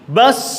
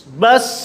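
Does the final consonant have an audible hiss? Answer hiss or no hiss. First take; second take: hiss; hiss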